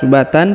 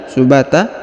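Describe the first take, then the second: First: The word ends with an n sound. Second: The word ends with a long a vowel. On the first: The speaker calls it wrong. "bukan subatan" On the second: The speaker calls it right. "tapi subata, dan dipanjangkan dua harokat"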